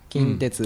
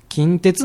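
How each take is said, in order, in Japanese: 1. 東京の標準語のアクセントです。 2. 京都のアクセントで、最後の音節が途中の高さです。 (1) "標準語だったら近鉄なんですよね" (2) "京都の人間は近鉄なんですよね"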